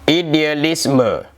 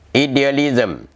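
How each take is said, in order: First: The word ends with a final e vowel. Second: The word ends on the consonant m. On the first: "Baca lisme" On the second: "Ejaan lama idealism"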